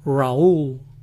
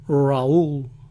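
First: The name sounds like Raúl, with a foreign accent. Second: The name sounds like Raúl, with a foreign accent.

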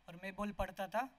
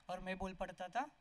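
The two takes are said the same way.

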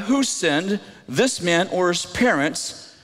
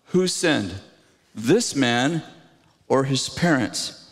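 First: It is read at normal speed. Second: It is read slowly.

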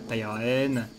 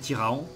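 First: The ending is said with a clear N sound. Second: The ending is said as a nasal vowel. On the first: "j'ai toujours dit de manière un peu elfique tous les noms" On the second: "ça pourrait très bien se prononcer Tyraan"

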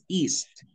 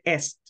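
First: The vowel is long, like in 'see'. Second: The vowel is short, like in 'set'. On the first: The speaker calls it right. "es east" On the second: The speaker calls it wrong. "tú dijiste est"

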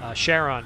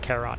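First: It is pronounced the way NASA astronomers say it. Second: It is pronounced the way Greek speakers say it. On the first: This is how astronomers say the name. "I guess if you're a NASA astronomer, you pronounce it that way" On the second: This is how Greek speakers say the name. "Charon if you're Greek"

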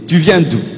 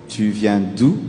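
First: The question is asked in a hostile, confrontational tone. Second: The question is asked in a calm, neutral tone. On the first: It starts a fight. The speaker calls it wrong. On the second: A friendly question about where someone comes from. The speaker calls it right.

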